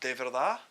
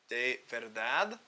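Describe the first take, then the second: First: The final d is left off. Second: The final d is clearly pronounced. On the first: "you kind of leave off that last D" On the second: "That would be"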